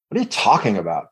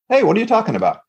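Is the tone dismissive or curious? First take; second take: dismissive; curious. First: It sounds dismissive and judging. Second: It sounds warm and curious.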